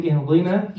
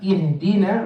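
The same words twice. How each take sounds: First: "ihdina" with a heavy d; dad for dal. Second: "ihdina" with a plain light d; light dal. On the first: Teacher showing what to avoid, "ihdina" with heavy dad. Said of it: "so don't say ihdina". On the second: Teacher giving the correction, "ihdina" with light dal. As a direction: keep the d in "ihdina" thin and light. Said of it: "make sure the dal is dal". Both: Shown as a demonstration.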